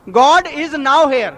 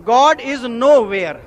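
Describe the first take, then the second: First: "God is now here" very slowly, "now" rhyming with "cow"; now and here separate. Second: "nowhere" slowly as "no-where", with a w starting "where". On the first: Reading a believer's doorplate, "now here" as two slow words. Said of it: "तख्ती पे लिखा था". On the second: Reading the atheist's altered doorplate, "nowhere" said slowly as "no-where". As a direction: turn "now here" into "no where". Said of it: "नाव के W को हटा दिया". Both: Shown as a demonstration.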